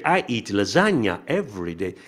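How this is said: The pitch moves up and down on 'lasagna'. The speaker calls it right. "Tem que ser"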